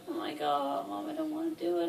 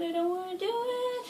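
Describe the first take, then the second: First: High, fast whiny begging; whiny plea. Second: Sung, high singsong whimper of a plea; sung whine. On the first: To Mom on the way to surgery, whiny begging. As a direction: beg Mom like a scared kid. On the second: To Mom before surgery, sung whiny plea. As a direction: sing the refusal like a pleading child. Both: Retold or imitated.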